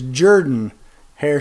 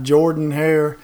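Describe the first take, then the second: First: Jordan is said with a 'Jur' sound. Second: Jordan is said with a 'Jor' sound. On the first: The speaker calls it right. "Coach Jordan pronounced it as if it was spelled J-U-R-D-A-N" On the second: The speaker calls it wrong. "and not"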